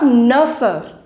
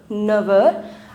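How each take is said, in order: First: The final consonant of neuf sounds like F. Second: The final consonant of neuf sounds like V. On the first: The speaker calls it wrong. "So it is not neufeur" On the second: The speaker calls it right. "We'll pronounce it as never"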